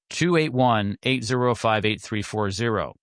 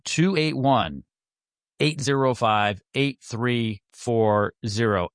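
First: The number is read at normal speed. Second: The number is read more slowly.

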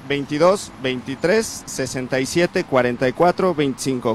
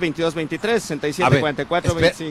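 First: The number is said slowly. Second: The number is said fast.

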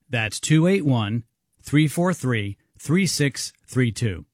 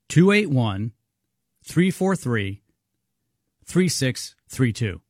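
First: It is read at normal speed. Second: It is read a little more slowly.

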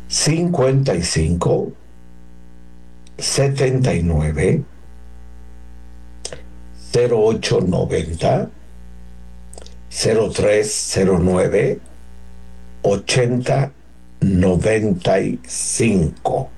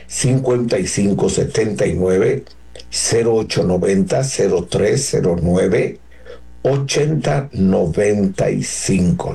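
First: The number is read slowly. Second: The number is read very fast.

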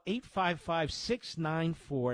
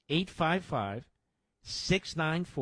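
First: The number is said at normal speed. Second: The number is said slowly.

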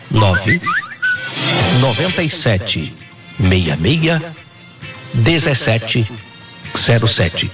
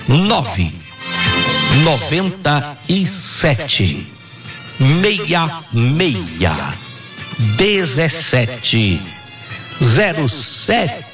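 First: The number is read at normal speed. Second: The number is read slowly.

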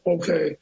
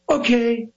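First: It is said flatly without pop. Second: It is said with energetic theatrical pop.

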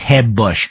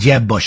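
First: Jeb is said with a Spanish-style H sound. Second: Jeb is said with an English J sound.

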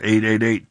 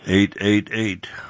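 First: The number is said fast. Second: The number is said slowly.

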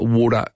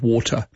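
First: The middle t is softened to a d. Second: The middle t is a clear t.

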